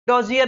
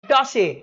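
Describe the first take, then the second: First: It has a z sound and a final r. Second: It has an s sound and no final r. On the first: The speaker calls it wrong. "डोजियर नहीं।" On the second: The speaker calls it right. "So it's डॉसिए।"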